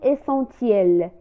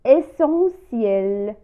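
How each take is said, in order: First: The middle consonant sounds like t. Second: The middle consonant sounds like s. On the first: The speaker calls it wrong. "ولا نقول essentiel" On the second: The speaker calls it right. "نقول essentiel"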